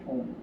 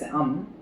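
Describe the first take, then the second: First: The word is said like 'ohm'. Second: The word is said like 'um'. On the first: The speaker calls it wrong. "many of us are pronouncing it ohm" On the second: The speaker calls it right. "it should be pronounced as um"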